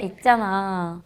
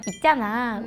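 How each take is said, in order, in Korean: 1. '있잖아'는 음을 낮춰서 말해요. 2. '있잖아'는 음을 높여서 말해요. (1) "안 좋은 걸 말하면 있잖아, 톤 다운" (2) "좋은 걸 말하면 있잖아, 톤이 업되면"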